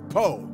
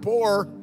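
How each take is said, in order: First: The word is said as po, without the R. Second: The word is said fully, with the R. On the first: This means extremely poor. "We couldn't afford the other O and R" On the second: This means ordinarily poor. "not poor"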